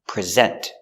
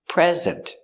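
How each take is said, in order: First: The stress is on the second syllable. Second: The stress is on the first syllable. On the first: It is a verb meaning to give a presentation. "Put the stress on the second syllable" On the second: It is a noun meaning a gift. "Stress on the first syllable"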